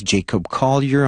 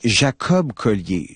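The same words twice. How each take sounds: First: "Jacob Collier" said the English way; English pronunciation. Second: "Jacob Collier" said the French way; French pronunciation. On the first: Radio host gives listeners the musician's name in English, English pronunciation. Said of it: "en anglais". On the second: Radio host introduces the musician to francophone listeners, French pronunciation. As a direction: pronounce "Jacob Collier" with French vowels and French stress. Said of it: "Je le prononce à la française". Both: Shown as a demonstration.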